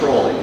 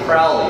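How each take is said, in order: First: The first syllable rhymes with 'slow'. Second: The first syllable rhymes with 'cow'. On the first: The speaker calls it right. "those who know me wholly will always call me Crowley" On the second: The speaker calls it wrong. "Those who think me foully insist to call me Crowley"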